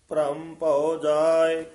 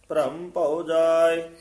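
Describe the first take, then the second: The two takes are said the same way.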